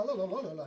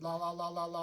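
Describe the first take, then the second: First: Rising and falling. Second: Flat monotone. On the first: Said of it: "you have all these ups and downs". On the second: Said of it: "like a straight line". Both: Shown as a demonstration.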